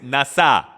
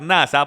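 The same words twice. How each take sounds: First: The word is pronounced the Hebrew way. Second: The word is pronounced the Spanish way. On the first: "pero en hebreo es nasa" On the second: "en español se puede pronunciar nasa"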